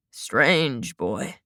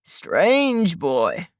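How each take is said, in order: First: Much lower and softer, trailing away; fading murmur. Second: Lightly voiced old man murmuring. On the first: Old man repeats it to himself, fading low murmur. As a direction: let it sink low, almost to himself. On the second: Old man repeats himself. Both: A narrator's reading.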